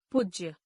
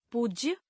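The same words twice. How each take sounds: First: पूज्य with a short "u"; mispronounced. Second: Said in the usual way. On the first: Shown as a demonstration. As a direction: say पूज्य as "pujya", vowel cut short. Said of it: "अशुद्ध". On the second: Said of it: "शुद्ध".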